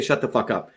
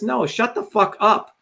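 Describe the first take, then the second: First: Lower, softer, dismissive shut the fuck up; flat quiet retort. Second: Slow, higher, spat-out shut the fuck up; defiant retort. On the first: Retold or imitated. Answering people who ask why he curses, low and dismissive. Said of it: "I say". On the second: Shown as a demonstration. Showing followers how to answer critics, slow and defiant. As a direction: draw out each word in defiance. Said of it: "We'll talk like this".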